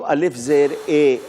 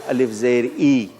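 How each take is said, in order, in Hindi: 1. स्वर मध्य 'e' ध्वनि की तरह बोला जाता है। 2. स्वर उच्च 'i' ध्वनि की तरह बोला जाता है। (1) "उर्दू में अलिफ ज़ेर ए है" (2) "अरबी में अलिफ ज़ेर ई है"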